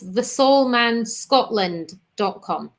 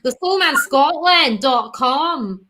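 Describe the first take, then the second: First: It is said in the speaker's ordinary accent. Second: It is said in a put-on Scottish accent.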